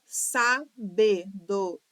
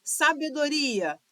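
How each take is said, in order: First: "Sabedoria" slowly as sa-be-do-ri-a; syllable by syllable. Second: Said in the usual way. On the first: Shown as a demonstration. Teacher counting five syllables, "Sabedoria" syllable by syllable. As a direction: break "Sabedoria" into five detached beats. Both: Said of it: "por possuir cinco sílabas".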